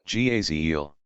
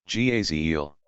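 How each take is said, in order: The two takes are said the same way.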